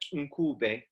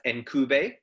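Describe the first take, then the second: First: It begins directly with the n sound. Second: It begins with an 'en' vowel sound. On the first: The speaker calls it right. "the correct pronunciation is something like Nkube" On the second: The speaker calls it wrong. "I always said the the name as Enkube"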